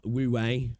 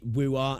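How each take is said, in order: First: The second syllable ends in an 'ay' sound. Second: The second syllable ends in an 'ah' sound. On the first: "and not woo-way" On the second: "why do we pronounce it woo-ah"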